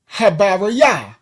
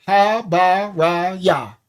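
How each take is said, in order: First: Said in the usual way. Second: "Habariya" slowed into ha-ba-ri-ya, each beat separate; slow syllable demo. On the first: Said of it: "the word". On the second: Shown as a demonstration. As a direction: say "Habariya" slowly so every syllable drops the jaw. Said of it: "Put your hand under your chin and say".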